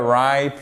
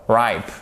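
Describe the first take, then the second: First: Ripe said with a long I and a silent final e; correct English pronunciation. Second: Ripe, long I diphthong, final e not pronounced; correct English pronunciation. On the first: Teacher giving the right pronunciation of ripe. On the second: Teacher correcting the reading of ripe. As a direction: say ripe with a silent e. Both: Shown as a demonstration. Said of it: "no, ripe".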